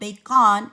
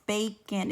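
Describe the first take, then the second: First: The second syllable has a full 'ah' vowel. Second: The second syllable has a reduced 'uh' vowel. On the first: The speaker calls it wrong. "instead of ah" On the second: The speaker calls it right. "It kind of sounds like eh or uh"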